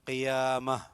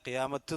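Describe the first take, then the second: First: The word ends on an a sound. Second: The word ends with a bare t sound. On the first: The speaker calls it right. "ഹ ഉച്ചാരണം" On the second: The speaker calls it wrong. "എന്നല്ല"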